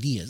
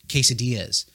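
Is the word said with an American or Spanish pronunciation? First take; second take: Spanish; American. First: The word is said with a Spanish-style pronunciation. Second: The word is said with a plain American pronunciation.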